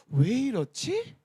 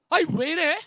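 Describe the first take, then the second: First: It sounds calm and wondering. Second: It sounds irritated and complaining.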